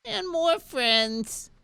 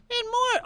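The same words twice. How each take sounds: First: High, very slow, drawn-out dragon squeal; the settled baby dragon voice. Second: Very high, louder little dragon squeak; first try at the tiny dragon; baby dragon voice. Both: Acted. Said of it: "Oh, that's it".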